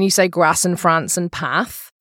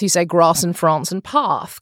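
First: It is said in a northern English accent. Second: It is said in a southern English accent.

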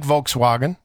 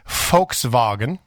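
First: It is pronounced with English sounds. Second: It is pronounced with German sounds.

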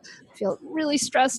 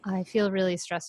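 First: It is said with lively, expressive emphasis. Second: It is said in a flat, monotone voice. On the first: The feeling comes across as real. The speaker calls it right. "show it through ... the way you talk" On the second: The feeling does not come across as real. The speaker calls it wrong. "You're not gonna be like, ... you don't want to be monotone"

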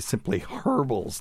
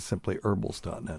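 First: It is said in a British accent. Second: It is said in an American accent. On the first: "Or as they would say in the UK" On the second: "but it's actually"

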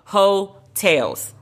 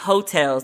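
First: It sounds like 'ho' followed by 'tales'. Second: It sounds like the ordinary word for lodgings. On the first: It is the album title, built on 'ho'. The speaker calls it right. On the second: It names places where you stay. The speaker calls it wrong. "not Hotels, like where you stay"

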